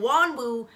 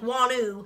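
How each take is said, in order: First: The middle of the name has a hard W sound. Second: The middle of the name has no W sound. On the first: The speaker calls it wrong. "hard W" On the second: The speaker calls it right. "like, Koreans say it"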